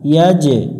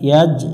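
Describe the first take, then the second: First: The j sound bounces with a slight echo. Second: The j sound is closed with no echo. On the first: The speaker calls it right. "কলকলা করতে হয়, এখানে একটু প্রতিধ্বনি সৃষ্টি করব" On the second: The speaker calls it wrong. "ইয়াস ইয়াজ এইভাবে পড়া যাবে না"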